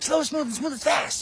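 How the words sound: It imitates the drill instructor's barking voice.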